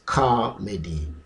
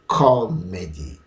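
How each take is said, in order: First: The first syllable sounds like ka. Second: The first syllable sounds like co. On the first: "the second or the variant" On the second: "So it goes like this"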